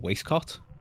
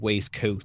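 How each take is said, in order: First: The last syllable has a short 'o' vowel. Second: The last syllable has a long 'oh' vowel. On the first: The speaker calls it wrong. "he calls it a waistcot" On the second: The speaker calls it right. "instead of saying waistcoat"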